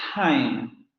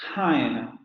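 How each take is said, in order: First: The first t has a puff of air. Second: The first t has a puff of air.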